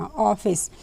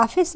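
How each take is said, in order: First: ऑफिस with a rounded open 'aw' vowel; correct pronunciation. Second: ऑफिस said as 'aafis', with long 'aa'; wrong pronunciation. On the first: Teacher models the word for learners, correct rounded vowel. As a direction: start ऑफिस on 'aw', not 'aa'. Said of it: "अगर हमें ऑफिस बोलना". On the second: Teacher shows learners what to avoid, 'aafis' vowel. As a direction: start ऑफिस on an unrounded 'aa'. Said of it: "नहीं बोलते". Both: Shown as a demonstration.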